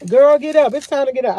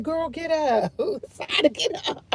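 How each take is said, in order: First: A louder, firm call to get up; loud wake-up call. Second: A soft, half-laughing nudge to wake up; gentle wake-up call. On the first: Ordering her sleepy sister out of bed, loudly. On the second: Coaxing her sleepy sister out of bed, softly. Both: Retold or imitated. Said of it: "I be like".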